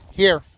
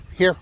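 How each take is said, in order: First: Loud, high call to a dog. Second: Said in the usual way. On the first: Real, not acted. Calling the dog from afar.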